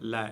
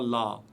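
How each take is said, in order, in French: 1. La syllabe est prononcée légère et fine. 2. La syllabe est prononcée lourde et pleine. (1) "prononcé légèrement" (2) "et non pas"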